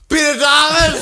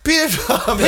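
First: It is yelled out loudly. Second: It is said at normal volume.

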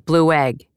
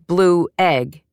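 First: The two words are smooshed together. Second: The two words are kept clearly separate. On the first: "the second phrase would be elided" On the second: "instead of the two words blue egg"

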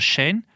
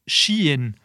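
First: The name is not pronounced like 'she in'. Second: The name is pronounced like 'she in'. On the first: The speaker calls it wrong. "Die denken, het gaat voor Shein" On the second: The speaker calls it right. "Maar je spreekt het uit als Shein. Het komt van She Inside"

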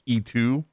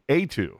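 First: The name begins with an 'ee' sound. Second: The name begins with an 'ay' sound. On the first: This is how most people first said it. The speaker calls it wrong. "most people were pronouncing it like E2" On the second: This is how the name is actually said. The speaker calls it right. "from what I've seen, it's like A2"

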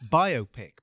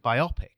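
First: The word sounds like bio plus pic. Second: The word sounds like it rhymes with myopic. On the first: It is short for biographical picture. The speaker calls it right. "in my mind, it's pronounced biopic because it's a biographical picture" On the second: It sounds like it is about myopia. The speaker calls it wrong. "that to me makes it sound like it's about myopia"

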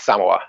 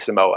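First: The stress is on the first syllable. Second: The stress is on the second syllable. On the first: This is the more authentic pronunciation. "emphasis on the first syllable is the kind of more authentic way to pronounce it" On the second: This is the less authentic pronunciation. "He does not say Samoa"

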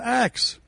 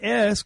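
First: The word ends with a k then s sound. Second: The word ends with an s then k sound. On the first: The speaker calls it wrong. "instead of axe? It makes no sense" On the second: The speaker calls it right. "why don't you say ask"

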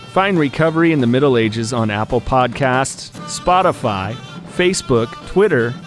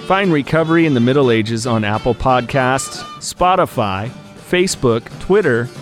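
No difference in how they are said.

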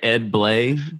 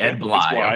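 First: The surname's vowel sounds like in 'day'. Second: The surname's vowel sounds like in 'eye'. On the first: The speaker calls it wrong. "Am I saying your name correct?" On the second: The speaker calls it right. "It's Bly"

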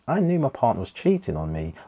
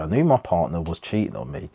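First: It is read expressively, with lively intonation. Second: It is read flatly, with little intonation. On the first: The speaker calls it right. "So do that again" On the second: The speaker calls it wrong. "I didn't read up any intonation"

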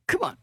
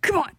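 First: It is said softly, with little force. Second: It is said forcefully, deeper and angrier.

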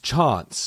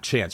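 First: It is said with a British accent. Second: It is said with an American accent.

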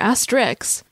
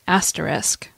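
First: The word ends with an 'iks' sound. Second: The word ends with an 'isk' sound. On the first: The speaker calls it wrong. "It's common to hear people call it asterisk or asterix" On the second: The speaker calls it right. "the correct pronunciation is asterisk"

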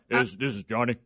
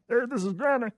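First: It is said in a deep, low voice. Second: It is said in a Kermit-like voice.

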